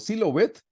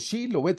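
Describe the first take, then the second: First: The word begins with a plain 's' sound. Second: The word begins with a 'sh' sound. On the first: This gives away that the speaker is from Ephraim. The speaker calls it wrong. "no podían pronunciar la sh, entonces decían Silobet" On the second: This is the test word as it should be said. The speaker calls it right. "no dijo Shilobet"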